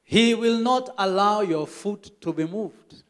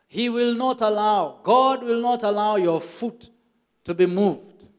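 First: Slow rereading. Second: Slow, lifted emphatic reading; excited reading. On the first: Member rereads verse slowly at pastor's request. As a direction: read the verse again slowly. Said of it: "read that again". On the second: Pastor excitedly repeats the verse, lifted and slow. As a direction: proclaim the promise with rising joy. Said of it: "he got so excited". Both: Retold or imitated.

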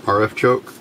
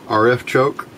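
No difference in how they are said.

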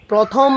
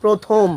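First: প্রথম with an open "aw", "prawthom"; wrong pronunciation. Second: প্রথম with a closed o, "prothom"; correct pronunciation. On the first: Teacher shows what not to say, প্রথম mispronounced "prawthom". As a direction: open up the first vowel of প্রথম. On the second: Teacher answers the question, প্রথম pronounced "prothom". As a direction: round the first vowel of প্রথম to o. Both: Shown as a demonstration. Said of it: "না বলে আমরা বলছি কি".

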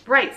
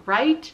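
First: Firm, loud "Right," said high and falling; "Right," punched out loudly, closing the question; father agreeing. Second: Loud, high questioning right?; "right?" pushed up high and loud, rising at the end; Flora asking. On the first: Father firmly agreeing with Flora, loud confirmation. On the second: Flora pressing her father for agreement, loud rising question. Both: Acted.

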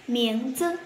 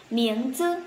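The two takes are said the same way.

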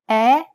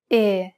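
First: "E" said as a wide, open eh. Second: "E" said narrowly, a pure closed ay. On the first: Italian teacher repeats the comparison, open E. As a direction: drop the jaw for "E", as in bet. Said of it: "Compare the open E". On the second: Italian teacher repeats the comparison, closed E. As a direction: keep "E" narrow, near say without the glide. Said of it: "followed by a closed E". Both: Shown as a demonstration.

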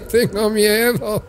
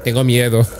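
First: High, slow whimpering scared voice; hammed-up fear, drawn out; mock scared. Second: Said in the usual way.

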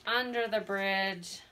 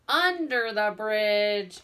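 First: Said in the usual way. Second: "under" punched loud and slow; stress on under. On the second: Shown as a demonstration. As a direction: hit "under" hard for the kids.

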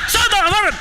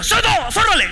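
First: High, mocking repeat of the order; echoed command. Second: High barked command; sergeant's shout. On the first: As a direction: parrot the sergeant's yell. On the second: Retold or imitated. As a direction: yell it like a drill sergeant. Sergeant yelling orders at recruit.

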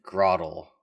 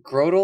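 First: Grotle with a short O, GROT-ul. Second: Grotle with a long O, GROH-tul. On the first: Offering cohosts the other pronunciation, Grotle with short O. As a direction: say Grotle to rhyme with bottle. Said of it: "it would have two T's". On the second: Asking cohosts which pronunciation is right, Grotle with long O. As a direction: say Grotle to rhyme with total. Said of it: "is it Grotle or is it Grotle". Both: Shown as a demonstration.

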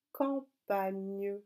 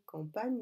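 First: Campagne drawn out in syllables; slow dictation. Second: Said in the usual way. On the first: Shown as a demonstration. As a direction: stretch campagne slowly for writing. (campagne dicté lentement, syllabe par syllabe)

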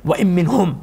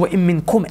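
First: مِّنْهُمْ set apart as the word not said; stress on مِّنْهُمْ. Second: مِّنْكُمْ pressed as the true word; stress on مِّنْكُمْ. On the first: Preacher showing the wording Allah didn't use, stress on مِّنْهُمْ. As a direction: land on the ending of مِّنْهُمْ. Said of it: "Allah didn't say". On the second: Preacher correcting to the wording Allah used, stress on مِّنْكُمْ. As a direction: land firmly on the ending of مِّنْكُمْ. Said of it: "Allah said". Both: Shown as a demonstration.

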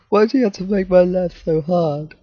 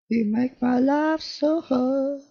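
First: Said in the usual way. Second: High, slow, soft whiny complaint; mock plea to the game, high and drawn out; mock whine. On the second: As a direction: whine it like a put-upon child.

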